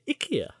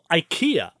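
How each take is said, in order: First: IKEA is said with a Swedish pronunciation. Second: IKEA is said with the usual English pronunciation. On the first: The speaker calls it right. "they say IKEA" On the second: The speaker calls it wrong. "I'm fairly sure we say it wrong"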